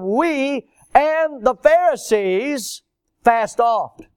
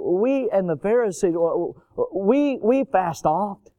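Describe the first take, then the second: First: It is said directly, without hesitation. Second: It is said timidly, with hesitations.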